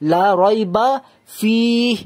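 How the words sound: It runs through 'la rayba' and pauses after 'fihi'. The speaker calls it right. "প্রথমটা আমি থামলাম না, কিন্তু এখানে থামলাম"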